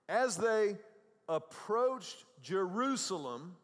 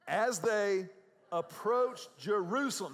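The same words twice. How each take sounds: First: It is read with little energy. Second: It is read with excited, high energy.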